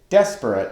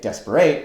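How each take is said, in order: First: The stress is on the first syllable. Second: The stress falls after the first syllable. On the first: The speaker calls it right. "the first syllable of the word accented" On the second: The speaker calls it wrong. "We don't say desperate"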